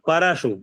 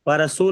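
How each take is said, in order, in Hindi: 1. 'shu' का अंतिम स्वर छोटा रखा जाता है। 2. 'shu' का अंतिम स्वर लंबा खींचा जाता है। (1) "बड़ परशु है" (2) "परशु नहीं, ... परशु बड़ा हो जाएगा, यहाँ बड़ा शु नहीं है"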